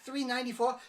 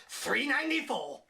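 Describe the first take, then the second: First: "Three ninety-four?" asked higher and louder with a rising disbelieving lilt; shocked. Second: "Three ninety-four." said louder with a falling, resigned finish; flat repeat. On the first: Girl hearing the coat price, mock shocked. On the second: Girl repeating the coat price, mock resigned. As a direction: state "Three ninety-four." as a dull confirmation. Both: Retold or imitated. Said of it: "She's like".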